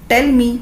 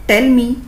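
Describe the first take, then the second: Both takes have the same delivery.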